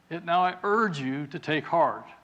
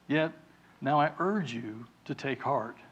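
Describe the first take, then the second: First: It is read loudly, as if shouting. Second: It is read at a normal speaking volume. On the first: "He's shouting over the storm, right? Maybe I should try that a little bit" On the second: "I'm reading this in a speaking voice"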